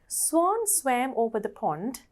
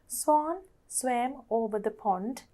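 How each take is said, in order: First: It is said at a faster, quicker pace. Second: It is said at a slower, ordinary pace.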